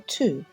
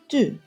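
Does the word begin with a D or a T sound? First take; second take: T sound; D sound. First: The word begins with a voiceless T sound. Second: The word begins with a voiced D sound. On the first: This is the Western Armenian form. "T in Western Armenian" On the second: This is the Eastern Armenian form. "the letter D in Eastern Armenian"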